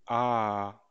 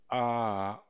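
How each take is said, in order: First: "A" starts high and falls only slightly, loud; high-mid tone. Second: "A" starts high and drops slightly; high-mid tone. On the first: Teacher demonstrating the high-mid tone on "A". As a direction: start "A" high, dip just a little. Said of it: "ce qu'on veut, c'est". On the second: Teacher repeating the high-mid tone on "A". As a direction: begin "A" high then settle to mid. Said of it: "Constatez bien que". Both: Shown as a demonstration.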